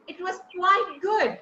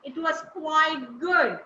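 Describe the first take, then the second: First: "good" on a smooth falling tune; glide down. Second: "good" slowly gliding down, unhurried; slow glide down. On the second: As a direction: draw it out and settle down on "good". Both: Shown as a demonstration. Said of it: "I'm gliding down".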